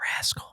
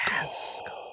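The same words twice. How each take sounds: First: It is repeated quickly like an echo. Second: It is said once, drawn out long.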